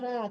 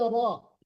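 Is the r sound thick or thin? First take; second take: thin; thick. First: The r sound is thin and light. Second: The r sound is thick and heavy. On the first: The speaker calls it wrong. "Jangan ra" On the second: The speaker calls it right. "tapi roh"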